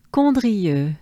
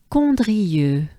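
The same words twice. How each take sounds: The two takes are said the same way.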